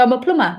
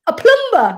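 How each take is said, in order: First: Said in the usual way. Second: High, incredulous echo of the reply; scandalised disbelief, acted out; mock astonishment. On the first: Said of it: "And he'd go". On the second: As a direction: imitate them balking at the job, pitched way up. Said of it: "And they'd sit there and go".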